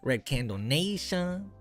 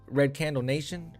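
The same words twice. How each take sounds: First: It is said with a Mexican Spanish accent. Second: It is said with a plain American accent. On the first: "you gotta say it Mexican" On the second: "if you just say it normal"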